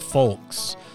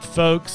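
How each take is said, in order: First: The word is said with an L sound. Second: The word is said without an L sound. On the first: The speaker calls it wrong. "not folks" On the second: The speaker calls it right. "I'm taking the L out"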